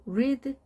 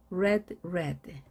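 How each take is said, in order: First: "read" pronounced like "reed"; long ee vowel in "read"; present-tense read. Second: Both "read" pronounced like "red"; short e in each "read"; past forms of read. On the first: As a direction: say "read" to rhyme with "seed". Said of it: "철자는 같은데 발음이 달라집니다". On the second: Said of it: "발음이 달라집니다". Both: Shown as a demonstration.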